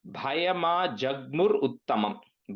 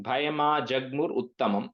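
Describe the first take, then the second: First: Measured, word by word; careful breakdown. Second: Quicker, run together as one phrase; joined up. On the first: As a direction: spell out the sounds for a learner. Slower first take of word. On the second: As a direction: say it briskly in one go. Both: Shown as a demonstration.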